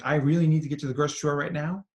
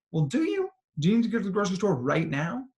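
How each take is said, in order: First: Quick, insistent run-through of a need; urgent inner thought. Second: Higher, pointed challenge, quickly asked; sceptical questioning. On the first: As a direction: rattle it off as a pressing need. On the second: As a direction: query it doubtfully, pitch jumping up. Challenging that urgent inner need. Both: Acted.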